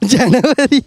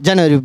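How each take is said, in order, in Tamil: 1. இது சிரித்துக்கொண்டே, மகிழ்ச்சியாகச் சொல்லப்படுகிறது. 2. இது சிரிக்காமல், தட்டையாகச் சொல்லப்படுகிறது. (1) "நீ சிரிச்சுக்கிட்டே சொல்லணும்" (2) "இப்படி சொன்னால் எல்லோரும் சொல்கிறீங்க"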